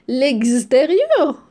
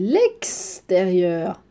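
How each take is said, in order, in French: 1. Le x se prononce comme le x dans exemple. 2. Le x se prononce différemment du x dans exemple. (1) "C'est faux. Non, on dit pas comme ça" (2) "il n'y a pas le son X"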